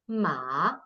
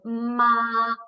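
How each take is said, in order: First: It is said with the third tone. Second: It is said with the first tone. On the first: "ma is third tone" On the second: "ma is first tone"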